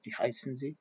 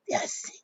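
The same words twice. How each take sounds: First: Said in the usual way. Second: Wie heißen Sie crushed into a quick voiceless hiss; Wie heißen Sie, Prussian. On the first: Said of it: "But I didn't hear". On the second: Retold or imitated. Recalling how grandfather taught German, Wie heißen Sie quick and cut. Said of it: "I hear".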